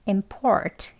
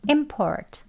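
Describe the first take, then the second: First: The stress is on the second syllable. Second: The stress is on the first syllable. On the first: It is the verb, to import. "동사 형태면 import 이렇게 뒤에 강세 있고요" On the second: It is the noun, an import. "앞에 강세 있는 명사 수입에 해당"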